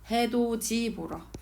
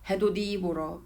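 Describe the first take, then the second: First: The first word ends with a 'ji' sound. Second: The first word ends with a 'di' sound. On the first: The speaker calls it right. "우리는 해도지라고 발음해요" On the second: The speaker calls it wrong. "이렇게 발음하십니까? 그렇지 않죠"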